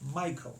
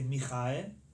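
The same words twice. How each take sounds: First: The stress is on the first syllable. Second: The stress is on the middle syllable. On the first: "in English we say Michael" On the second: "We don't say Michael. Not the middle"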